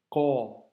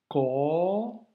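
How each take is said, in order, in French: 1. La voyelle après la consonne est courte. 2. La voyelle après la consonne est longue. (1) "on passe aux voyelles courtes" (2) "Pour les voyelles longues"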